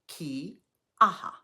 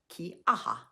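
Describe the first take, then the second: First: The word is spoken slowly. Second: The word is spoken a bit faster. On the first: "Say it slowly after me" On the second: "Now say it a bit faster"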